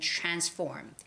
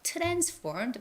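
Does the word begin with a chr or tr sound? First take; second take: chr; tr. First: The word begins with a chr sound. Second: The word begins with a plain tr sound. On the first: The speaker calls it right. "it's always the C H sound again" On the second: The speaker calls it wrong. "it's not translations or transformed"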